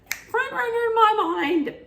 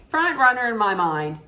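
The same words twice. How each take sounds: First: "Front runner in my mind" sung out much higher in a put-on voice; mock falsetto thought. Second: Said in the usual way. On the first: Her first reaction to the bachelor, in a much higher mock falsetto. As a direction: squeal the thought like a smitten fan. Repeats own thought, then in voice.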